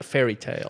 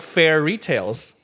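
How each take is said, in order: First: The stress falls in the usual places. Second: The stress is moved to a different syllable. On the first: Stories like fables are meant. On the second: Fairly priced shopping is meant.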